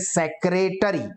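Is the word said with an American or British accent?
American. All four syllables are pronounced, American style. "अमेरिकन या हम लोग क्या बोलते हैं"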